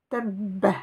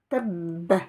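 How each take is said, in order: The two takes are said the same way.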